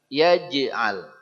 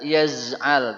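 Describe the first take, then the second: First: The middle consonant is a j sound. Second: The middle consonant is a z sound. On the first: The speaker calls it right. "tapi yaj'al" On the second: The speaker calls it wrong. "Tidak yaz'al"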